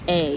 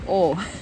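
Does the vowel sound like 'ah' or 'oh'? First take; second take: ah; oh. First: The vowel sounds like 'ah'. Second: The vowel sounds like 'oh'. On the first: The speaker calls it wrong. "not A. You're not going to A" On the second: The speaker calls it right. "pronounced like the letter O. O"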